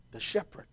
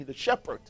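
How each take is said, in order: First: Breathy whispered repeat, almost no voice. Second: Said in the usual way. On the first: Acted. Preacher whispers the word to the congregation. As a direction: drop to a whisper to let it sink in.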